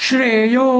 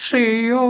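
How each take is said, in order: No difference in how they are said.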